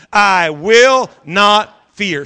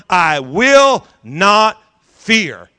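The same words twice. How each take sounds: First: Slow, louder repeat of "I will not fear"; repeating loudly. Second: Chanted, slow, drawn-out declaration; chanted, lay it out slowly for them to repeat; leading a chant. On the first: Pastor repeating with congregation, louder slow declaration. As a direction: say it loud with the congregation. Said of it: "Say it loud". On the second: Chanted, pastor leading congregation in the words, slow declaration. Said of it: "I want you to say that with me". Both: Shown as a demonstration.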